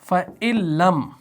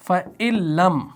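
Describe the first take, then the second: First: The n merges into a doubled l sound. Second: The same.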